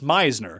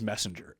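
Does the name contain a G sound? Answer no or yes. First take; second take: no; yes. First: The name is said without any G sound. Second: The name is said with an added G sound. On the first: The speaker calls it right. "if you actually want to pronounce it properly" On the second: The speaker calls it wrong. "I just throw a G in there"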